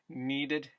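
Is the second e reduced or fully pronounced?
reduced. The second e is reduced.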